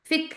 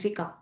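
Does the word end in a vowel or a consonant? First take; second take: consonant; vowel. First: The word ends on a consonant, no vowel. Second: The word ends with an added final vowel. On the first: This is how it is actually spoken. "फिक लेकिन बोला जाता है" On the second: This is how it is named in Urdu. "इसको हम उर्दू में फिका कहते हैं"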